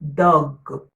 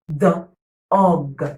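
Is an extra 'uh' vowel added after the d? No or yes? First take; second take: no; yes. First: The d goes straight into the vowel sound. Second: An extra uh vowel follows the d sound.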